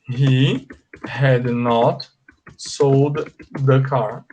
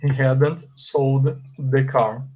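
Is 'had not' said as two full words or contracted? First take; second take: full; contracted. First: Had and not are said as two full words. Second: Had and not are joined into hadn't. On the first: "Você diz assim" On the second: "Ou então você abrevia dizendo assim"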